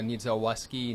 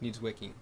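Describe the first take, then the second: First: The name is said with an S sound inside. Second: The name is said without any S sound inside. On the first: The speaker calls it wrong. "they butcher it" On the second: The speaker calls it right. "take out the S"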